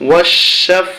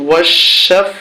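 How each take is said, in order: Both takes have the same delivery.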